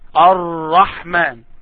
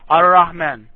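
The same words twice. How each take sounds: First: The r sound is held a little longer. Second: The r sound is said quickly without waiting. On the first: The speaker calls it right. "try to wait a little bit. It is Ar-Rahman" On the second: The speaker calls it wrong. "Let me imitate you. You say Ar-Rahman"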